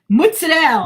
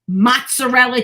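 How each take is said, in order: First: It is said with an Italian-American family pronunciation. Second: It is said with a standard American pronunciation. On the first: "My family, it's like" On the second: "is how the Americans say it"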